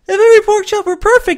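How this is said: It is deep, with the pitch adjusted further. "fiddle with the pitch until you get something that's satisfactory"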